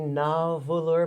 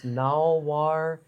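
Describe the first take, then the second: First: The name is read out syllable by syllable. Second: The name sounds like the English word narwhal. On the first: The speaker calls it wrong. "I want to say Nalvulur" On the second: The speaker calls it right. "but it's Nalwar"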